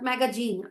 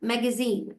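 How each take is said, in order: First: The consonant before the last vowel sounds like j. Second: The consonant before the last vowel sounds like z. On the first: The speaker calls it wrong. "Not ম্যাগাজিন" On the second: The speaker calls it right. "যখন জি আসে তখন সেটার sound হয়ে যায় so ম্যাগাজিন"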